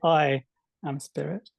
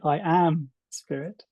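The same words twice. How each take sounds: First: The emphasis falls on the word I. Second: The emphasis falls on the word am.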